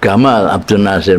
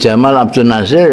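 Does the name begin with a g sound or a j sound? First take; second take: g sound; j sound. First: The name begins with a hard g sound. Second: The name begins with a soft j sound.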